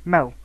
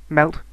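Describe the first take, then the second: First: MEL, melt without its final 't'; dropped final T. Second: Said in the usual way. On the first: Shown as a demonstration. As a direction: stop on the L of 'mel', no T. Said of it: "have been dropped". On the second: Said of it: "sounds at the end of words".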